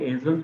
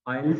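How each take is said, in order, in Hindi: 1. इसे 'ayzels' की तरह बोला जाता है, z के साथ। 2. इसे 'ails' की तरह बोला जाता है, z के बिना। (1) "इसे एज़ल्स भी पढ़ा जा सकता है" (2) "आइल्स के से भी प्रोनाउंस प्रोनाउंसिएट करते हैं"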